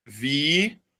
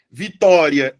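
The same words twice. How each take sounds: First: VITÓRIA slowly split, long pauses between syllables. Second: Said in the usual way. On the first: Shown as a demonstration. Teacher giving a paroxytone example, syllable by syllable. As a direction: draw out each syllable of VITÓRIA as if writing it. Example word broken up while writing.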